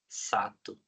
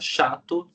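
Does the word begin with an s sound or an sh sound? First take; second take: s sound; sh sound. First: The word begins with an s sound. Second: The word begins with an sh sound. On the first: The speaker calls it wrong. "sai sato" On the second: The speaker calls it right. "toda vez que a criança fala chato"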